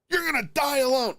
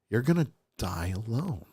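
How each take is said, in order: First: It is said in a plain, ordinary tone. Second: It is said in a creepy, menacing tone.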